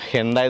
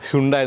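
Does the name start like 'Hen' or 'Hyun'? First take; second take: Hen; Hyun. First: The first syllable sounds like 'hen'. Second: The first syllable sounds like 'hyun'. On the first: "ഹെൻഡായി എന്ന് പറയുന്നുണ്ട്" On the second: "ഹ്യുണ്ടായി എന്ന് പറയുന്നുണ്ട്"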